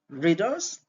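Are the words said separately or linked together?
linked. The two words are linked together.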